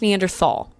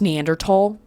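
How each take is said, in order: First: The last syllable starts with a th sound. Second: The last syllable starts with a hard t sound. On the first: The speaker calls it wrong. "It's not pronounced Neanderthal. I know it has a T H" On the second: The speaker calls it right. "It is pronounced Neanderthal"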